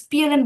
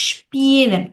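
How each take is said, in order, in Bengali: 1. শব্দটি একটি সাধারণ s উচ্চারণ দিয়ে শুরু হয়। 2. শব্দটি একটি sh উচ্চারণ দিয়ে শুরু হয়। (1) "আপনি স্পিএলএন বলছিলেন" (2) "এটার উচ্চারণটা হবে স্পিএলএন"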